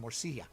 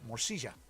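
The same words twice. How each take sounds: First: It is said with a non-Argentinian pronunciation. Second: It is said with an Argentinian pronunciation.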